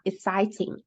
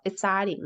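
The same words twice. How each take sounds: First: The middle T is a crisp released T. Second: The middle T is a quick soft flap. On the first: The speaker calls it wrong. "not exciting" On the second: The speaker calls it right. "The same thing happens with the T and exciting"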